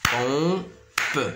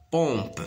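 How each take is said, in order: First: "Pompe" split in two, final pe sounded; drawn-out two-beat "Pompe"; syllable by syllable. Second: Said in the usual way. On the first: Shown as a demonstration. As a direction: sound out "Pompe" as pom, pause, pe. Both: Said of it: "De deux syllabes plutôt".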